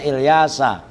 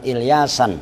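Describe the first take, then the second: First: Ilyasa said with no final n, ending on the open a; correct Arabic name. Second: Ilyasan said with an added final n and a falling end; wrong form shown. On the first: Teacher reading the kitab shows the right form, Ilyasa with no n. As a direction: say it Ilyasa, with the last vowel left open. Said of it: "bukan Ilyasan". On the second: Teacher corrects students, giving the wrong Ilyasan with final n. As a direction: tack an n onto the end, Ilyasan, as the mistake. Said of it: "makanya Ilyasa". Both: Shown as a demonstration.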